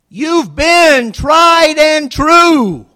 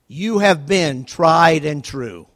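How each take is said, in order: First: It is said loudly, almost shouted. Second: It is said at a normal, soft volume.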